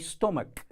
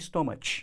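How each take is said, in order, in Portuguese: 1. A palavra termina com som de k. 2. A palavra termina com som de ch. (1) "ele tem o som de K. Então é stomach" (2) "e não stomach"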